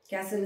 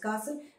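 First: It is said with an American pronunciation. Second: It is said with a British pronunciation. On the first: "Castle is the American pronunciation" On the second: "the British pronunciation is castle"

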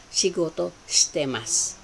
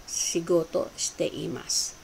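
Both takes have the same delivery.

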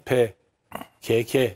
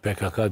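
First: Each letter K is read as 'ke'. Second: Each letter K is read as 'ka'. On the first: This follows the Turkish letter names. "Türkçe'de maalesef harfler E harfiyle okunuyor... O yüzden PKK denmesi lazım" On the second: This is how Germans say it. "Almanlar PKK diyor canım"

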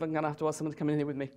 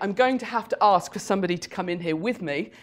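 First: The words are run together and heavily reduced. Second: Every word is articulated clearly and fully. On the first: "it's phenomenally underproduced" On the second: "Instead of saying"

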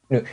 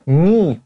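First: The word is said fast and reduced. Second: The word is said slowly and fully. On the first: "越说越快，最后就实际就变成这样了" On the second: "你看。"

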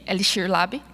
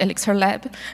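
First: It is pronounced with Portuguese sounds. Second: It is pronounced with English sounds. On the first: The speaker calls it right. "in Portuguese, we say" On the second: The speaker calls it wrong.

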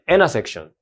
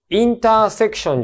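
First: The T after the n is dropped. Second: The T after the n is clearly pronounced. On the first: The speaker calls it right. "このT あんまり言わないで、インナーで言う。" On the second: The speaker calls it wrong. "インターセクションじゃなくて"

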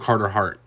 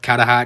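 First: The name is said in a plain accent. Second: The name is said in a Boston accent.

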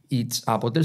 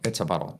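First: Each word is said separately. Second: The words run together like one word. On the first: The speaker calls it wrong. "no decir it's a bottle" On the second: The speaker calls it right. "como si fuera una sola palabra"

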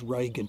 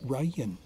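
First: The middle consonant is a hard G sound. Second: The middle consonant is a Y sound. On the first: "The Germans pronounce it as Regen today" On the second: "change the G to a Y and you get Rayen"

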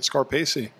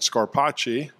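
First: The name is pronounced in an American way. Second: The name is pronounced in an Italian way. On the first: "he started pronouncing it Scarpacci" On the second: "in Italy, you would pronounce it Scarpacci"

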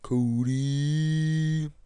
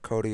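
First: It is said in a put-on, stretched cartoon voice. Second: It is said in his normal voice. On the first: The speaker calls it right. "I gotta say it with a Fat Albert voice" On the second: The speaker calls it wrong. "my name's not Cody"

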